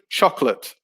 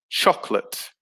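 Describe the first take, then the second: Both takes have the same delivery.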